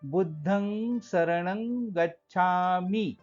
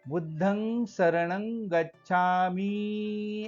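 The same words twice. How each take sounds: First: The word gacchami is broken off, not drawn out. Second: The word gacchami is drawn out in one stretch. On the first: The speaker calls it right. "असा तोडायचा आहे, हा शुद्ध उच्चार होतो" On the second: The speaker calls it wrong. "आस लावून म्हणतो तेव्हा तो अशुद्ध उच्चार होतो"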